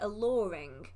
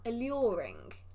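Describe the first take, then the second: First: The word is said in a relaxed, casual way. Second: The word is said with exaggerated, careful articulation. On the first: "I guess people say it alluring" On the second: "I over enunciate"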